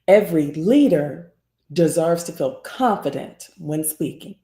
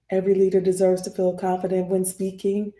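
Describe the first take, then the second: First: Varied pitch with emphasis on 'leader' and 'confident'. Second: Flat pitch with only a small rise at the end. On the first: "I'm gonna emphasize the word leader, and I'm gonna emphasize the word confident" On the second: "It's kind of flat, except for the the ending tweak, the turn up at the end"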